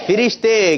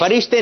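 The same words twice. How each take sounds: First: "فرشتے" loud and high as fi-rish-te; correct pronunciation. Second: "فرشتے" as fa-rish-te, with short a first; wrong pronunciation. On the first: Host drilling the children, loud correct fi-rish-te pronunciation. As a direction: call out "فرشتے" with short i first. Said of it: "کیا تلفظ ہے؟". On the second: Host telling children what not to say, wrong fa-rish-te pronunciation. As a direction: say "فرشتے" opening on fa, falling. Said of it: "فرشتے نہیں کہنا ہے". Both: Shown as a demonstration.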